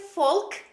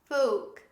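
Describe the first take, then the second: First: The L sound is pronounced. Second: The L sound is silent. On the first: The speaker calls it wrong. "Don't say folk" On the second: The speaker calls it right. "The correct pronunciation is folk"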